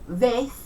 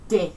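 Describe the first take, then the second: First: The word starts with a th sound. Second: The word starts with a d sound.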